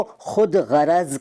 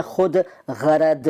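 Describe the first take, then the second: First: Said in the usual way. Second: खुद गरद, slow and ending on d. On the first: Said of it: "खुद गरद नहीं कहते". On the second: Shown as a demonstration. Teacher showing the rejected form, खुद गरद with d for z. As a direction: end खुद गरद with d, not z. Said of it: "नहीं कहते".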